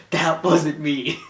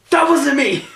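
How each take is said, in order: First: Put-on slow, lightly done New York Jewish accent; a hint of a New York Jewish accent. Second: High, loud panicked shout. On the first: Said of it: "really easy to impersonate". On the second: Retold or imitated. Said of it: "he goes like this".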